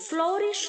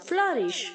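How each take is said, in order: First: The first vowel is a full 'oh' sound. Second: The first vowel is a light, reduced sound. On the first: The speaker calls it wrong. "फ्लोरिश नहीं बोलेंगे आप" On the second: The speaker calls it right. "ओ यू हल्का सा ई की तरह sound करेगा"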